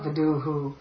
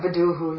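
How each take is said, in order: First: The final vowel after the h is long. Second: The final vowel after the h is short. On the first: The speaker calls it wrong. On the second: The speaker calls it right. "always be a short form"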